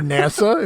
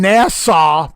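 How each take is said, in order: First: NASA is pronounced in the ordinary, usual way. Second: NASA is pronounced in an exaggerated, unusual way. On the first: It is the way most people say it. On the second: It imitates how someone else said it in a story.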